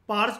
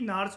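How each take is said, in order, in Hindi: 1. नाम की शुरुआत एक साधारण p ध्वनि से होती है। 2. नाम की शुरुआत एक साधारण n ध्वनि से होती है। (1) "आप इनको पार्स भी कह सकते हो" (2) "एक्चुअल प्रोनाउंसिएशन इनकी नार्स होती है"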